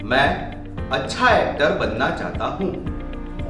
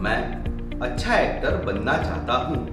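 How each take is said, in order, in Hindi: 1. इसे बढ़ी हुई आवाज़ में बोला गया है। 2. इसे सबसे कम आवाज़ में बोला गया है। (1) "वॉल्यूम बढ़ाकर" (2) "कुछ इस प्रकार"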